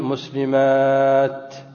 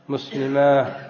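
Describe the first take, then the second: First: The word ends with a t sound. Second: The word ends with an h sound. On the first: The speaker calls it right. "بالسكون على التاء" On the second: The speaker calls it wrong. "على غير الأفصح أن نقف عليه ماذا؟ بالهاء"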